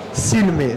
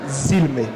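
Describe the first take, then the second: First: The word begins with an S sound. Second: The word begins with a Z sound. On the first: The speaker calls it right. "sempre som de S, nunca som de Z" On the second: The speaker calls it wrong. "não zilme"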